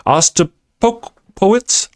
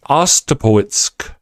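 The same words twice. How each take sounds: First: Ostapowitz sounded out slowly, syllable by syllable; first stumbling go at Ostapowitz; slow careful try at a name. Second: Ostapowitsk said with a hard sk at the end, a bit slow; second stumbling go at Ostapowitsk, ending in sk; second try at a name. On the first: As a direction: spell out Ostapowitz slowly, unsure of it. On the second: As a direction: correct yourself to Ostapowitsk, still unsure. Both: Real, not acted. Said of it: "My Texas accent screws me up".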